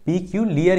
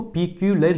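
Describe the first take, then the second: First: पिक्यूलियर ending in "-li-yar"; पिक्यूलियर as pi-kyu-li-yar; preferred pronunciation. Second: पिक्यूलर ending in a short "-lar"; पिक्यूलर as three syllables, pi-kyu-lar; variant pronunciation. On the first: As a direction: say पिक्यूलियर with a clear "i" glide in the ending. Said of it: "ही बोला जाता है". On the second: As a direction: say पिक्यूलर with no "i" glide before the last vowel. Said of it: "सबकी pronunciation अलग अलग हो". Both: Shown as a demonstration.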